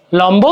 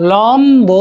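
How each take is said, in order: First: Said in the usual way. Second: লম্ব stretched as "lom... bo"; split syllables. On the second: Shown as a demonstration. Teacher showing how it is pronounced, stretched লম্ব. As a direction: draw out both syllables of লম্ব, b clear. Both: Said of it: "এভাবে উচ্চারণ".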